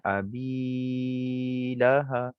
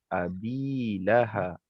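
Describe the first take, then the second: First: The long vowel is stretched out far too long. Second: The long vowel is held for only two beats. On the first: The speaker calls it wrong. "contoh kalau panjang sangat" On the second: The speaker calls it right. "pastikan kita baca dua harakat sahaja"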